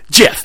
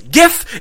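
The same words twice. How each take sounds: First: The word begins with a soft J sound. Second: The word begins with a hard G sound. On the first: The speaker calls it wrong. "you're wrong if you say GIF" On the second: The speaker calls it right. "It is GIF. It's spelt with a G, not a J"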